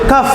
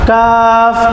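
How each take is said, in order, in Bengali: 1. স্বরটি ছোট করে কাটা হয়। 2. স্বরটি লম্বা করে টানা হয়। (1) "সঠিক উচ্চারণটা হচ্ছে না" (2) "একালিফ টান দিয়ে পড়তে হবে"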